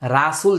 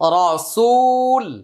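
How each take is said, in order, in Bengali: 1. র-এর পরের স্বরধ্বনিটি একটি পাতলা খোলা 'a'। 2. র-এর পরের স্বরধ্বনিটি পূর্ণ ও গোলাকার।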